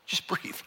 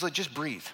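First: Jesus gently calming the martyrs, whispered. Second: Said in the usual way. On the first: Retold or imitated. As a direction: breathe it out in a whisper. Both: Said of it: "Jesus says".

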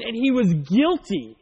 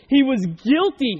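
First: Said in the usual way. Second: He was guilty, louder, slow, each word weighted; stress on guilty. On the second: Shown as a demonstration. Preacher driving home that the runaway slave was guilty, slow and emphatic. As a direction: lean hard on "guilty" the second time.

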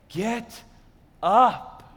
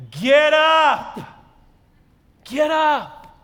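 First: Loving father. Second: Loud, high ringing command; commanding call. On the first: Loving father leaning down to his son, gentle. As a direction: say it tenderly, a pause between the words. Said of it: "is from a loving father". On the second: Angel waking Elijah, loud and commanding. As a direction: call it out to wake the sleeper. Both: Acted.

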